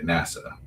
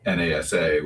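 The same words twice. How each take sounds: First: It is pronounced as a single word. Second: It is spelled out letter by letter. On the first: The speaker calls it right. "we say NASA" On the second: The speaker calls it wrong. "We don't say NASA"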